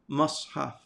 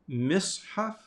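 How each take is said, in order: First: The first vowel is an a sound. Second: The first vowel is an i sound. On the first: "it can have a fatha" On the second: "it can have a kasra"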